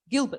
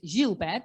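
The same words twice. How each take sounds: First: The name is pronounced the English way. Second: The name is pronounced the French way. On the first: The speaker calls it wrong. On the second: The speaker calls it right.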